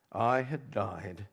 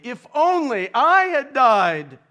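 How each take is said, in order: First: Slow, hushed and broken, almost to himself; grieving father's muted cry; hushed weeping lament. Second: Slow, high, loud anguished cry; a preacher crying out the king's despair; emphatic lament. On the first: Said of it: "and wept". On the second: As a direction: wail the wish out at full force from the pulpit. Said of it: "He has lamented emphatically". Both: A narrator's reading.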